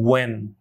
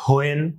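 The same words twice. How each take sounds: First: "when" said as "wen"; correct pronunciation demo. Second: "when" said as "ho-en", with an h; wrong pronunciation demo. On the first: Teacher giving learners the correct "when", as "wen". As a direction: start "when" on a plain w, one syllable. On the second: Teacher showing the common mistaken "when", h-initial. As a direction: split "when" into h plus "oen". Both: Shown as a demonstration. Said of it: "it should be".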